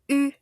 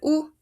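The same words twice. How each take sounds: First: The vowel is a front rounded ee-oo mix. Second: The vowel is a plain back rounded oo. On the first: The speaker calls it right. "Esta va a ser la U francesa" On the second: The speaker calls it wrong. "No va a ser U"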